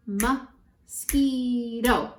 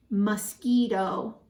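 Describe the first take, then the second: First: "Mosquito" slowly broken into three beats; syllable by syllable. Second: Said in the usual way. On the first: Shown as a demonstration. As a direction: sound out "Mosquito", stretching each syllable. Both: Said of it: "How many syllables?".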